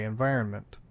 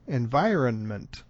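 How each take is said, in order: First: The middle N is pronounced lightly and subtly. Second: The middle N is pronounced fully and strongly. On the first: The speaker calls it right. "somehow that N gets slipped in there in some way" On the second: The speaker calls it wrong. "to overdo it, environment would sound extremely odd also"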